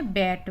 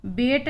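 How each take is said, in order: First: बैट with the open ae sound of bat; correct vowel. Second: बेट with a short e, not the a of bat; wrong vowel. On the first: Teacher models बैट with the open ae. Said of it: "बैट बोला है". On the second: Teacher shows the wrong vowel in बेट. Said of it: "बेट नहीं बोला है हमने". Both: Shown as a demonstration.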